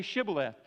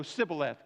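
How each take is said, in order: First: Shibboleth with a clear sh sound; correct Shibboleth. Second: Sibboleth with a plain s instead of sh; Sibboleth, the sh sound turned into s; mispronounced Sibboleth. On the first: Guard testing a traveller, Shibboleth with sh. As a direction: Shibboleth said with sh at the start. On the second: Ephraimite failing the test, Sibboleth with s. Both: Retold or imitated. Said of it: "'cause they couldn't pronounce it".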